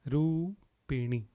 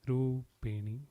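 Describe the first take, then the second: The two takes are said the same way.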